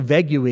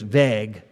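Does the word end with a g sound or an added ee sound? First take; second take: ee sound; g sound. First: The word ends with an added ee sound. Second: The word ends cleanly on the g sound. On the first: The speaker calls it wrong. "you don't pronounce the U-E" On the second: The speaker calls it right. "it's just vague"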